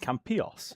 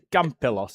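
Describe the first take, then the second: First: The name is said in a Spanish way. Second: The name is said in an anglicized way. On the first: The speaker calls it right. "it should have been" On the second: The speaker calls it wrong. "when we went to Campilos"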